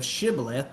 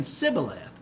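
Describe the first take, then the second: First: Shibboleth, starting with a clear sh; correct sh sound. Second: Sibboleth, starting with a plain s. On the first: Shown as a demonstration. Preacher contrasting the right word, shibboleth with sh. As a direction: say shibboleth with the hushing first sound. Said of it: "could not pronounce that sh sound". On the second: Retold or imitated. Preacher mimicking the Ephraimites' mistake, sibboleth with s. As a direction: say sibboleth, dropping the hush from the first sound. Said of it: "instead of shibboleth, they were saying".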